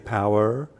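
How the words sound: The word is drawn out into two syllables. "If I was from the southern states and the United States, I might say every letter"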